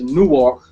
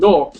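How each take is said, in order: First: Newark is said in the widely known pronunciation. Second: Newark is said in the local pronunciation. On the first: Everybody can tell which city is meant. "so everybody knows the city I'm saying is Newark" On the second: It is how people from the city say it. "as they will say out there"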